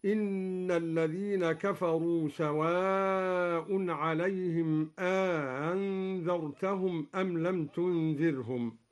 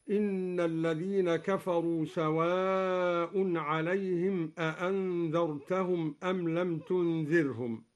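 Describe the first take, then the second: First: أأنذرتهم with the second hamza softened and a two-beat alef between; Duri tasheel. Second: أأنذرتهم with both hamzas fully stopped; two clear glottal stops in أأنذرتهم; standard recitation. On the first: Teacher showing students the softened hamza of al-Duri. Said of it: "بتسهيل الهمزة الثانية ... تمد بمقدار حركتين، هكذا". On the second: Teacher reciting أأنذرتهم with two full hamzas. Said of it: "قرأ الدوري بتسهيل الهمزة الثانية". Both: Shown as a demonstration.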